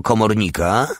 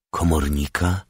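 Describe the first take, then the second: First: Higher, innocent rising query; naive question. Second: Pondering echo. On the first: SS man guesses who took the house, naive. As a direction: ask guilelessly, voice lifted. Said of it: "zapytał naiwnie esesman Krause". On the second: Old man weighs the SS man's word, pondering. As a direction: turn the word over thoughtfully. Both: A narrator's reading.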